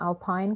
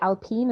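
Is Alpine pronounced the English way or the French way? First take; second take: English; French. First: The word is pronounced the English way. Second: The word is pronounced the French way. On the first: The speaker calls it wrong. "and not" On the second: The speaker calls it right. "because it is French"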